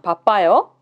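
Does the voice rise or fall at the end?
rises. The voice rises at the end.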